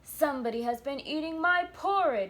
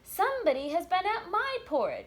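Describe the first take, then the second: First: It is said in a deep, gruff bear voice. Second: It is said in a medium-sized bear voice.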